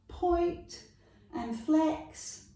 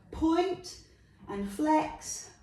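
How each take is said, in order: Both takes have the same delivery.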